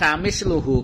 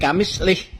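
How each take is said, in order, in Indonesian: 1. Huruf l memakai vokal u; akhirannya hu. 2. Huruf l memakai vokal i; h di akhir tanpa vokal. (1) "kalau seandainya dibaca kamisluhu bidomil lam menggunakan domah lamnya" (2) "dibaca kasroh lamnya ... dan dibaca sukun haknya berarti kamislih"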